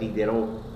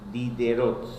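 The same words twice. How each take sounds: First: It is said with French pronunciation. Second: It is read letter by letter, Spanish-style. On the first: "pero se pronuncia" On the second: "se escribe"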